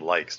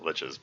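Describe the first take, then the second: First: The word ends with a k sound. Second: The word ends with a ch sound. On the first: This is how the speaker said it as a child. "at one time when I was a kid, I called them likes" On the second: This is the pronunciation that games made popular. "not liches"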